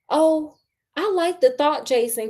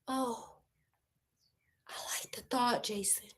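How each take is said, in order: First: It is said at normal loudness. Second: It is said softly and quietly.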